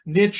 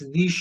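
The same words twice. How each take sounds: First: It is the United States pronunciation. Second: It is the Canadian pronunciation.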